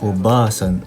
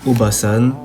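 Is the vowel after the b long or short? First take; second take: long; short. First: The vowel after the b is held long. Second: The vowel after the b is short. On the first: It means grandmother. "deux A" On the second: It means aunt or middle-aged woman. "avec un seul A"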